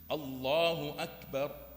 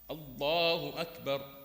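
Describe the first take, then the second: No difference in how they are said.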